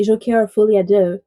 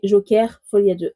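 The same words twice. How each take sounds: First: "Joker Folie à Deux" all in English sounds; English-accented title. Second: "Joker Folie à Deux" with a French uvular r; French-accented title. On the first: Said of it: "Joker, I say it with an English accent". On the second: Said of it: "I say it with a French accent". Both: Shown as a demonstration.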